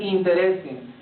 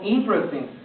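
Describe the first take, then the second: First: The vowel after "int" is pronounced. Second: The vowel after "int" is dropped. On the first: The speaker calls it wrong. "yo no quiero que pronuncien interesting" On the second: The speaker calls it right. "de manera que no la pronuncies, la suprimes"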